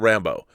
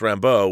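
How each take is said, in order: First: The stress is on the first syllable. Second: The stress is on the second syllable. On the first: The speaker calls it wrong. "it's not Rambo" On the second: The speaker calls it right. "with an emphasis on the second syllable"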